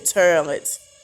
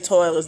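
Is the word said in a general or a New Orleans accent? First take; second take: New Orleans; general. First: It is said in a New Orleans accent. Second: It is said in a general accent.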